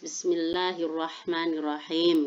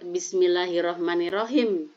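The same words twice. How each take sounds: First: It is said slowly with each word clearly articulated. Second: It flows quickly with the words run together. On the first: The speaker calls it right. "kita harus mencontohkan yang bagus" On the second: The speaker calls it wrong. "jangan mengikuti air mengalir"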